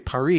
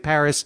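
First: The name is said the foreign, local way. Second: The name is said the usual American way. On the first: It sounds pretentious in America. The speaker calls it wrong. "you wouldn't say Paris" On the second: It is the normal choice in America. The speaker calls it right. "you would say Paris"

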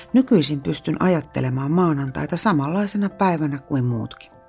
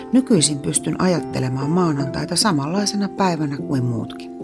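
The two takes are said the same way.

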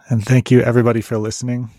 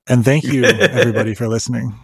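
First: It is said plainly, with little feeling. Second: It is said warmly, with more feeling. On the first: The speaker calls it wrong. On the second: The speaker calls it right.

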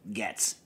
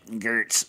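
First: The vowel is a short 'e', as in 'get'. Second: The vowel sounds like 'er', as in 'her'. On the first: This is how the name is actually said. The speaker calls it right. "but it's Getz" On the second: This is how the spelling suggests it is said. The speaker calls it wrong. "so it should be pronounced Gertz"

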